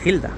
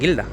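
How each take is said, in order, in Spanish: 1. La palabra empieza con un sonido gutural parecido a la h. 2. La palabra empieza con un sonido g duro. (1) "sino gilda. ... porque no tiene la U" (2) "no se dice guilda"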